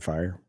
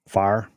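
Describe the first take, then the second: First: The word is said in a neutral accent. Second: The word is said in a Southern drawl. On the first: "No, but seriously" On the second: "That's how you say it, Southern"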